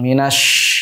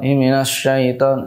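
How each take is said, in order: First: The sh sound has strong spreading air. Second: The sh sound has little spreading air. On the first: The speaker calls it right. "ketika kita memberikan sifat tafashi" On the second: The speaker calls it wrong. "tidak terdengar banyak udara yang menyebar"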